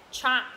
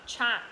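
Both takes have the same delivery.

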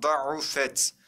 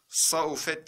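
First: "Da'ufet" starting on a heavy D; correct reading. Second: "Saufet" starting with S instead of D; wrong reading. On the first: Teacher asks how it was read, gives correct reading. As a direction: open "Da'ufet" with D, carefully. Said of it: "Nasıl okuduk arkadaşlar?". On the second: Teacher quizzes students with a wrong reading. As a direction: swap the first sound to S in "Saufet". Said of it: "diye okuduk mu?". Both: Shown as a demonstration.

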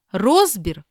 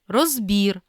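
First: Розбір as ROZ-bir; first-syllable stress. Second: Розбір as roz-BIR; last-syllable stress. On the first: Teacher reading double-stress words, first-syllable stress on Розбір. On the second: Teacher giving the other variant, final stress on розбір. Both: Shown as a demonstration. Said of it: "слова із подвійним наголосом".

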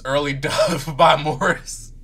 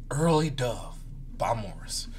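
First: Slow title read broken by a laugh; laughing through it. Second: Quiet, softer title read. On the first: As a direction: say the title, giggling on it. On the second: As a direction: read the title softly, a touch solemn. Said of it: "Date time". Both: Shown as a demonstration.

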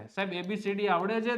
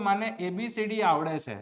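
First: "આવડે છે?" asked as a question to the class, with "છે" the most prominent word. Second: "મને એ B C D આવડે છે" said as a flat statement with a falling end. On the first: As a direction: turn "આવડે છે?" into a question to the students. ("આવડે છે?" પ્રશ્નાર્થ સૂરમાં, "છે" પર ભાર) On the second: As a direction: state "આવડે છે" plainly, letting the pitch fall at the end. ("આવડે છે" વિધાન તરીકે, અંતે સૂર નીચે) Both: Shown as a demonstration.

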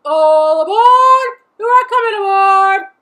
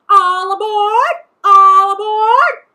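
First: Station master calling out. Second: Loud, high, drawn-out parrot call; parrot mimicking station master. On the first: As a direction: sing it out across the station. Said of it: "the station master calls out". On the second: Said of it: "all parrots do". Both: A narrator's reading.

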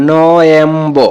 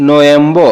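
First: নয়েম্বো stretched out slowly, part by part; slow demonstrated pronunciation. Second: Said in the usual way. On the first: Shown as a demonstration. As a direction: draw out each syllable of নয়েম্বো for learners. (নয়েম্বো ধীরে, টেনে টেনে উচ্চারণ) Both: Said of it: "এরকম হবে".

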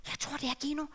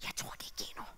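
First: Said in the usual way. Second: Hushed unvoiced aside; breathless whisper. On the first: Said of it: "plain take". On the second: Shown as a demonstration. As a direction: whisper it to yourself. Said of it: "demo before quote".

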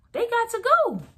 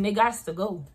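First: "They got to go" jumped much higher, "go" falling; high emphatic. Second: Said in the usual way. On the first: Real, not acted. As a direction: throw "go" up high, then let it fall. Repeated send-off, pitched way up.

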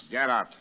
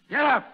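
First: Said in the usual way. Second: Much higher, louder bellowed order; furious shout. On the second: Acted. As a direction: bark it at him full force. Sergeant orders prisoner up.

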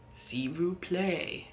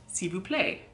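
First: "s'il vous plaît" drawn out very slowly; "s'il vous plaît" said slowly, a model to copy; slow demonstration. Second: Said in the usual way. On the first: Shown as a demonstration. Teacher repeats phrase slowly.

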